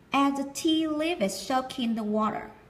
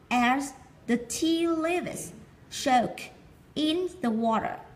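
First: It is read fast with soak and in linked. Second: It is read slowly, word by word.

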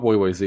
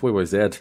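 First: The last letter is the American 'zee'. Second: The last letter is the Canadian 'zed'.

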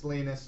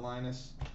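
First: The name is pronounced the Swedish way. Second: The name is pronounced the English way. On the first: The speaker calls it right. "If it's Swedish, it's Linus" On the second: The speaker calls it wrong. "not Linus"

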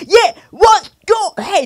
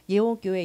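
First: It is said loudly and forcefully. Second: It is said in a plain, soft voice.

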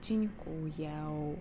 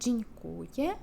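First: The final vowel is drawn out with a glide. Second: The word ends in a short, plain e sound. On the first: "трішечки тягнемо як «дзінькуєу»" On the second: "ігноруємо ось цей хвостик і кажемо просто як букву Е"

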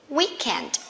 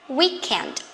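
Both takes have the same delivery.

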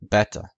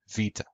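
First: It is said with the classical Greek pronunciation. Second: It is said with the modern Greek pronunciation. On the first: "In classical Greek, it was pronounced beta" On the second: "In modern Greek, it's pronounced vita"

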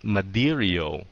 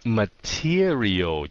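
First: The middle T sounds like a soft D. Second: The middle T is a crisp T sound. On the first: The speaker calls it wrong. "chứ không phải là material" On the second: The speaker calls it right. "Tuy rằng có hai cái nguyên âm nó bao dây cái T"

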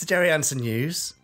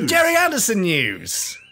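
First: It is said flatly, with little energy. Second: It is said with lots of excited energy. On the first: The speaker calls it wrong. "I sound a bit more excited than you do" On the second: The speaker calls it right. "I almost did a bit too much there"

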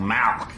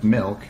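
First: The vowel is an open 'a' sound. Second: The vowel is a short 'i' sound. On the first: The speaker calls it wrong. "you're saying it wrong. You're saying Malk" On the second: The speaker calls it right. "the way everyone ought to say it. Milk, M-I-L-K"

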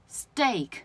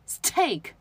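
First: The t is said without a puff of air. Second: The t is said with a puff of air.

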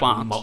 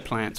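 First: The word is said the home-region way. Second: The word is said the Victorian way. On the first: "but when I come home, I say" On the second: "I say plants when I go to Victoria"

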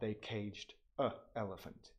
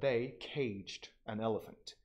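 First: The article has no n, with a break before elephant. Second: The article ends in n, linking smoothly into elephant. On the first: The speaker calls it wrong. "You kind of stutter, so you have to like add a break yourself" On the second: The speaker calls it right. "it took an hour"

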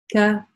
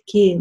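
First: The vowel after k is an open a. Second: The vowel after k glides toward ey. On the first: The speaker calls it right. "Нет, это мягкая буква" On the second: The speaker calls it wrong. "многие пытаются делать ее чрезмерно мягкой, опять за счет как бы, передвижения ее ближе к «я»"

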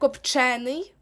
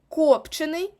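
First: The stress is on the second syllable. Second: The stress is not on the second syllable. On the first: It is an adjective. "як прикметник, наголос буде на е" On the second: It is a participle. "якщо це дієприкметник"

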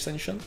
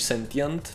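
First: The word is said with a non-British pronunciation. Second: The word is said with a British pronunciation. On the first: "než sentient" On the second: "Britové by to řekli spíš sentient"

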